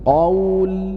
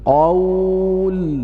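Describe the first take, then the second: First: The long vowel is held for two counts. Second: The long vowel is held for four counts. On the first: "dan dibaca dua harokat" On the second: "kemudian empat harokat"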